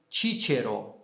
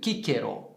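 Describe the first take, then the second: First: The first C sounds like CH. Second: The first C sounds like K. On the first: "no latim eclesiástico ... essa pronúncia de C como Che" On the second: "com a pronúncia reconstituída ... a letra C tem som de K"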